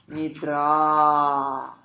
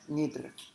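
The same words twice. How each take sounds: First: The final a is a full open vowel. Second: The final a is a weak reduced vowel. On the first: The speaker calls it right. "a palavra é Nidra... esse A tem um som de A, que nem do Ayurveda" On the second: The speaker calls it wrong. "Ela não é Nidra"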